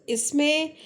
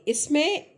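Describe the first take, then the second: No difference in how they are said.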